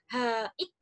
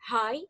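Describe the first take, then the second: First: The word is broken into two syllables. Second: The word is said as a single syllable. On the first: The speaker calls it wrong. "Bukan haik, bukan gitu kan" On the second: The speaker calls it right. "Kalau diucapkan tuh sekali ucap gitu kan"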